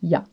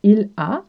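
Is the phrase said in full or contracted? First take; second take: contracted; full. First: It is contracted into one short syllable. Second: It is said in full as two syllables.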